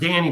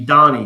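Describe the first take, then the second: First: The first vowel sounds like the vowel in 'cat'. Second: The first vowel sounds like the vowel in 'father'. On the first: The speaker calls it wrong. "I always pronounce it Danny" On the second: The speaker calls it right. "it's actually Donnie because you know German"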